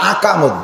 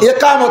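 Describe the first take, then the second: First: The word begins with an open 'a' vowel. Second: The word begins with an 'e' vowel. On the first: The speaker calls it wrong. "একামতও দেয় না, আকামত দেয়। আকামত মানে হলো আকাম করা" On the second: The speaker calls it right. "শব্দ একামত বলেন"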